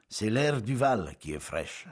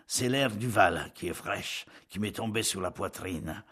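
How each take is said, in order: First: Slow, dragging complaint; same dragging tone. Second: Dragging words. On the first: Paoli to his guests, slow dragging words. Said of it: "Du même ton". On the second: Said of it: "Il traînait ses pas et ses paroles". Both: Acted. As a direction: drag the words out wearily.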